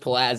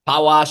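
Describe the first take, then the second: First: The surname is said with English sounds. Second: The surname is said with Polish sounds. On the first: "in English" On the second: "in Polish"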